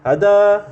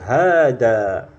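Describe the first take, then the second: First: The first vowel is short. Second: The first vowel is held long. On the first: The speaker calls it wrong. "nggak boleh kita bacanya hada" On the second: The speaker calls it right. "tapi dengan dua harokat hanya"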